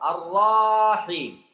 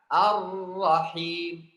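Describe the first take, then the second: First: The 'ra' syllable is drawn out before 'him'. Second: The 'ra' syllable goes straight into 'him'. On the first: The speaker calls it wrong. "ada yang suka dipakai mad atau panjang habis huruf ra" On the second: The speaker calls it right. "langsung masuk huruf ha"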